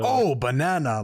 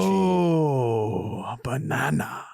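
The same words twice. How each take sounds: First: The "oh" is short and punchy. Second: The "oh" is long, drawn out and sensual.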